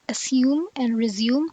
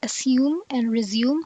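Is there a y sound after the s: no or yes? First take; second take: yes; yes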